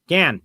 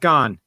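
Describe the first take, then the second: First: The syllable has a flat 'a' vowel, like 'gan'. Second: The syllable has an 'o' vowel, like 'gone'. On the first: The speaker calls it right. "Gan, not gone" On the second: The speaker calls it wrong. "not gone"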